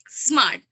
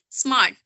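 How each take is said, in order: First: An extra vowel is added before the s. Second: The word starts directly with the s. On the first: This is how Farsi speakers say it. "but they say" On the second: This is the standard way to say it. "Like we say"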